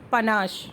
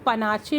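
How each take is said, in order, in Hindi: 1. यह शब्द 'sh' ध्वनि से खत्म होता है। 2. यह शब्द 'chay' ध्वनि से खत्म होता है। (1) "इसका जो करेक्ट प्रोनाउंसिएशन होता है वो होता है पनाश" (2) "इसको पनाचे मत बोलिएगा"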